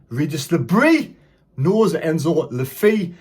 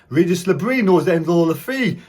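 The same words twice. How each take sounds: First: The phrase is spoken at a normal speed. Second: The phrase is spoken quickly, like a tongue twister.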